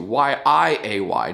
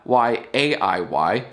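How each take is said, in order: First: "Y I A Y" letter by letter, slow; spelled out slowly. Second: "Y A I Y" letter by letter, slow; spelled out slowly. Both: Shown as a demonstration. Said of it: "And spell it right".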